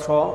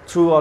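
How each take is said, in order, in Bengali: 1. শব্দটি th ধ্বনি দিয়ে শুরু হয়। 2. শব্দটি সাধারণ t ধ্বনি দিয়ে শুরু হয়। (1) "উচ্চারণটা দুই রকমই আছে, দুইটাই চলে" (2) "উচ্চারণটা দুই রকমই আছে, দুইটাই চলে"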